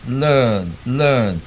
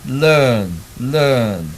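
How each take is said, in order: The two takes are said the same way.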